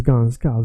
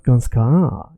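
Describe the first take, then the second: First: GANSKA with weight on GAN, short SKA; correct first-syllable stretch. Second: GANSKA with SKA dragged long; wrong stretched ending. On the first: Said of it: "it's ganska". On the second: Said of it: "it's not ganska". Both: Shown as a demonstration.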